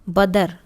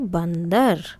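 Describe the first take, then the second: First: The first syllable has no nasal sound. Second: The first syllable has a nasal sound. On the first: The speaker calls it wrong. "लेकिन ये क्या है?" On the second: The speaker calls it right. "इनके ऊपर बिंदी लगाते हैं"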